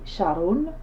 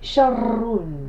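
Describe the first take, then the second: First: The r sound is short and single. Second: The r sound is doubled and held long. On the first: The speaker calls it wrong. "j'ai pas dit sharun" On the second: The speaker calls it right. "j'ai insisté sur le ra"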